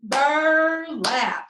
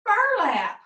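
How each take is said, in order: First: "Burlap" in two drawn-out beats, BUR and LAP; "Burlap" broken in two, with a gap between bur and lap; split into syllables. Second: "Burlap" as one joined word, high start then falling; "Burlap" run together in a high, falling call; blended whole word. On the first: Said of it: "let's clap that and see how many syllables". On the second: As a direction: say "Burlap" all together, pitched up on the first syllable. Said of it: "put it all together". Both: Shown as a demonstration.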